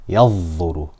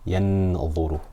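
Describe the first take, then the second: First: The n sound merges completely into the next sound. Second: The n sound is pronounced fully and clearly. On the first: "there I completely merged the noon into the dha" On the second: "There I did idhar"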